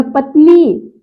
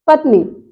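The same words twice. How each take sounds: First: पत्नी with a long held nee; शुद्ध उच्चारण. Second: पत्नी quick, with a short final i; गलत उच्चारण. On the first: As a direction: lean on the final "ee" of पत्नी. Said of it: "बड़ी ई की मात्रा हो जाएगी". (पत्नी की "नी" खींचकर) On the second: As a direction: clip the end of पत्नी. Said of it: "सब अशुद्ध है". (पत्नी में "नि" छोटा) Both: Shown as a demonstration.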